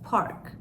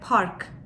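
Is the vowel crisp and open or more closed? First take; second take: closed; open. First: The vowel is said with a more closed mouth. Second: The vowel is crisp and wide open. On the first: "daha ağzımı kapalı tutarak" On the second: "Türkçe'de daha böyle park"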